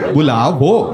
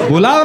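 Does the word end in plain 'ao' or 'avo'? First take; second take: avo; ao. First: The word ends with an added 'vo' sound. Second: The word ends with a plain 'ao' sound. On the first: This is how the teacher said it. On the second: This is the standard Hindi form.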